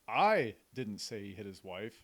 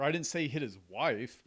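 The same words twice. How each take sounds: First: The word "I" carries the main stress. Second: The word "wife" carries the main stress. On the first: Someone else might have said it. "So you're implying that it wasn't me" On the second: He hit somebody else. "who'd he hit? Somebody else"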